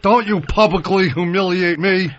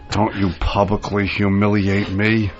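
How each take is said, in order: First: The line is spoken at full, carrying volume. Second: The line is spoken in a lowered, quieter voice. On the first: The speaker calls it wrong. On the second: The speaker calls it right.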